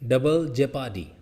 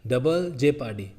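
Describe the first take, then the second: No difference in how they are said.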